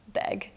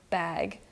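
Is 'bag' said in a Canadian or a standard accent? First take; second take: Canadian; standard. First: It is said with a Canadian vowel. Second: It is said with a standard vowel. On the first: "sometimes I say it like beg" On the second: "except I said it right at that point"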